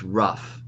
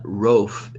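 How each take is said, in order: First: The vowel is short, like in 'cup'. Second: The vowel is long, like in 'loaf'. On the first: The speaker calls it right. "So they all have short vowels" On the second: The speaker calls it wrong. "this is not roaf"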